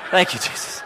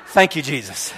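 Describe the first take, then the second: First: Breathy laughing whisper of thanks. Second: Laughing low thank-you, relieved. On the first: Chaplain whispering thanks to Jesus in the truck, laughing. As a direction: whisper it to yourself, relieved. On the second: Chaplain thanking Jesus after being told to stay, laughing. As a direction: chuckle your thanks. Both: Retold or imitated. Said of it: "I'm like".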